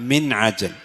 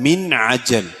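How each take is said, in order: No difference in how they are said.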